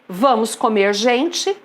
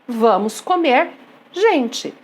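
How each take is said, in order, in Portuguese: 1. Continua sem pausa antes de gente. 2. Há uma pausa antes de gente.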